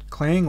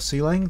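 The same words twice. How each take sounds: First: It is said as a single syllable. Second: The letter C is spoken, then lang. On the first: "depending on what pronunciation you prefer" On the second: "depending on what pronunciation you prefer"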